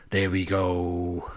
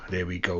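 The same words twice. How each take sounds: First: Slow, resigned there we go; slowly drawn-out, resigned. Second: Said in the usual way. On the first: Real, not acted. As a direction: stretch it out with a sigh.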